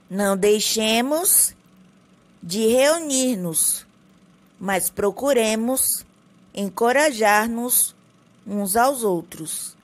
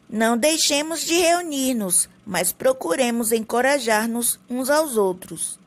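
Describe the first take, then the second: First: It is read slowly with more pauses. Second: It is read at a quicker, less paused pace.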